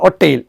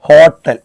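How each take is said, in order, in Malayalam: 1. ഈ വാക്ക് സ്വരാക്ഷരത്തോടെയാണ് തുടങ്ങുന്നത്, h ശബ്ദമില്ല. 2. ഈ വാക്ക് കേൾക്കാവുന്ന h ശബ്ദത്തോടെയാണ് തുടങ്ങുന്നത്. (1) "പണ്ട് കാലത്ത് നമ്മൾ ഉച്ചരിച്ചത് ഒറ്റയിൽ എന്നാണ്" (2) "നമ്മൾ ഹോട്ടൽ എന്ന് ഉച്ചരിക്കും അല്ലെ"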